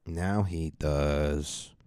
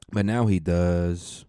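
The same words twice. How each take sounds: First: Said in the usual way. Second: Slow, louder, drawn out; dramatic announcement. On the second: Shown as a demonstration. To the listeners about the podcast, slow dramatic reveal. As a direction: lean hard on now.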